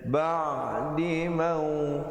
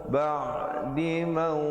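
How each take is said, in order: The two takes are said the same way.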